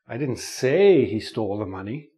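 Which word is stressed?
say. The stress falls on the word 'say'. The speaker only hinted it without saying it. "Maybe I hinted it"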